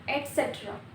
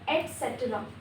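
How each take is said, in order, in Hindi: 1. शब्द 'et' ध्वनि से शुरू होता है। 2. शब्द 'et' ध्वनि से शुरू होता है।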